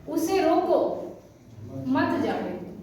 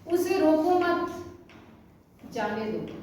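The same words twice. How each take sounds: First: The pause comes after 'रोको'. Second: The pause comes after 'मत'.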